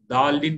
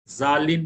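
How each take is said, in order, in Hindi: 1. शब्द सामान्य 'd' ध्वनि से शुरू होता है। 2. शब्द 'z' ध्वनि से शुरू होता है। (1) "दालिन बोलते बाद लोग दाल से, वो भी गलत है" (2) "जालिन मत बोलिए"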